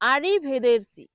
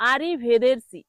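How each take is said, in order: First: The third syllable has an 'e' vowel. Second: The third syllable has an 'e' vowel.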